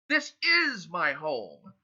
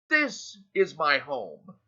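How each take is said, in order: First: The stress is on the word is. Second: The stress is on the word this.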